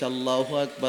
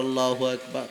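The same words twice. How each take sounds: The two takes are said the same way.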